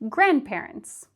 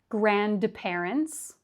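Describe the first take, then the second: First: The D sound in the middle is dropped. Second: The D sound in the middle is pronounced. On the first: The speaker calls it right. "but grandparents" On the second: The speaker calls it wrong. "Not grandparents"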